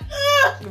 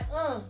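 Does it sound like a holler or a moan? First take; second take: holler; moan. First: It is a loud, strained holler. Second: It is a soft, low moan.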